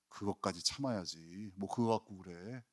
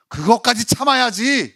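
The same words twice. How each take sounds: First: Much softer, lower, shrugging it off; offhand dismissal. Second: Loud, higher, firm command; firm rebuke. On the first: Jesus waving off a church member, soft and offhand. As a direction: brush off the complaint lightly. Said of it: "예수님 이렇게 말씀하실 거예요". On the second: Jesus telling Peter to endure, firm and loud. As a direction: lay down the rule with no give. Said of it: "단호하게 말씀하시는 거예요". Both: Pretend.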